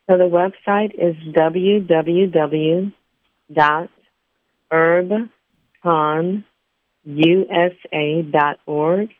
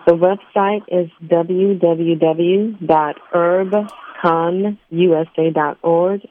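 First: It is said more slowly. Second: It is said at normal speed.

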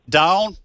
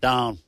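First: The name is said in a Southern accent. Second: The name is said in a New England accent. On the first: "There, bingo, got it, brother" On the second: "You were doing New England"

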